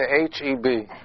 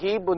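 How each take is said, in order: First: The name is said as three separate letters. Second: The name is said as a single word. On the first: The speaker calls it right. "That means there's a dot between them" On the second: The speaker calls it wrong. "do you say Hebe? No, you don't say it"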